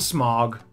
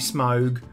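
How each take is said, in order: First: The vowel is a single blended sound. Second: The vowel is a gliding diphthong. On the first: The speaker calls it wrong. "I call him Smaug" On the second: The speaker calls it right. "Technically, it should be Smaug"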